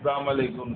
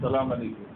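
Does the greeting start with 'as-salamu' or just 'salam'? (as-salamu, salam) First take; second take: salam; salam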